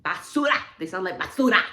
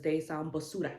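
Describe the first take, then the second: First: Emphatic exclamation. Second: Said in the usual way. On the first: Real, not acted. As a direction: belt out "basura" as an insult. Repeats the insult, calling it out.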